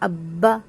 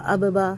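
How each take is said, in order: First: The b is held firmly without a bounce. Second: The b bounces with an echo and a break. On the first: The speaker calls it right. "बा को रोक लेंगे, होल्ड कर लेंगे" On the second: The speaker calls it wrong. "इसमें कलकला नहीं करेंगे ... ऐसे नहीं पढ़ेंगे"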